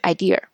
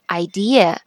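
First: The word ends with an added r sound. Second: The word ends without an r sound. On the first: The speaker calls it wrong. "而不是idea" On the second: The speaker calls it right. "它肯定只能是idea"

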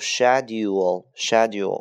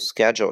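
First: It is said with a British pronunciation. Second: It is said with an American pronunciation. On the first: "英式发音读schedule" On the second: "美式发音读schedule"

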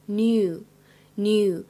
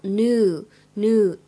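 First: It is said with a British "nyoo" sound. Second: It is said with an American "noo" sound. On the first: "英式当中呢，比较常见的读法是读成new" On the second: "美式的发音会比较靠向new 这样的发音"

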